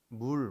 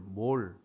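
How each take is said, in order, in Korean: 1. 모음은 'u' 소리가 납니다. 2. 모음은 'o' 소리가 납니다. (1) "발음이 물 그렇게 읽을 수 있고" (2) "몰 그럴 수 있어요"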